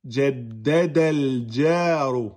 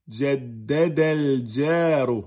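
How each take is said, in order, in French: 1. Les mots s'enchaînent directement sur le l. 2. Les mots s'enchaînent directement sur le l.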